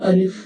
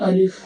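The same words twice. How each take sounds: No difference in how they are said.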